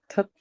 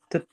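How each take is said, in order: First: The first consonant is said with strong aspiration. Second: The first consonant is said without aspiration. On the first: The speaker calls it right. "tapi tet, da" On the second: The speaker calls it wrong. "bukan tet, da"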